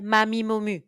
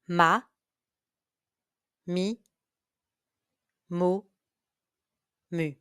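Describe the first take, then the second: First: The syllables are said at a very fast pace. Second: The syllables are said at a moderate pace. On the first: "Even faster" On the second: "Listen and repeat"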